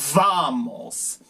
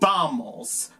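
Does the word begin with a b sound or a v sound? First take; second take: v sound; b sound. First: The word begins with a v sound. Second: The word begins with a b sound. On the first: "pero en inglés es vamos" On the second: "pero es pronunciado como B"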